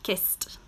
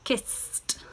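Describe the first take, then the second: First: The word is said quickly at natural speed. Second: The word is said slowly and carefully.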